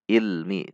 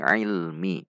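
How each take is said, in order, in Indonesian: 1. Dimulai dengan hamzah yang ringan. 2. Dimulai dengan bunyi tegang di tengah tenggorokan. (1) "Tidak dibaca i. Itu hamzah" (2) "namun ini ilmi"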